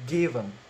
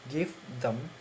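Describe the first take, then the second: First: The 'th' merges into the preceding 'v' sound. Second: The 'th' of 'them' is clearly pronounced. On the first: "in progressive assimilation is become given" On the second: "In normal sound is give them"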